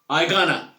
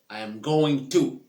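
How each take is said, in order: First: The phrase is squeezed into a short reduced form. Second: The phrase is said with every word in full.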